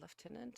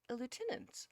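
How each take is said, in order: First: Lieutenant is said with British pronunciation. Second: Lieutenant is said with American pronunciation. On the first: The speaker calls it right. "is more in more fitting for U K" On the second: The speaker calls it wrong. "That was the American pronunciation of lieutenant"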